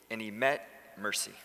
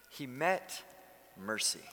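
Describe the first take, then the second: First: Said in the usual way. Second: He met, pause, then mercy softer and falling; pause before mercy. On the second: Shown as a demonstration. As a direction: let a beat hang before mercy. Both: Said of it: "if you're taking notes".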